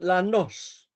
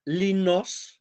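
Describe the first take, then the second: First: The first vowel is a long 'ah' sound. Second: The first vowel is an 'ee' sound. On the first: This is the local island dialect form. "pronounced lanos with long alpha" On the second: This is the form used across Greece. "throughout the whole Greece it's called linos with eta"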